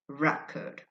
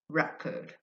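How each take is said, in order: No difference in how they are said.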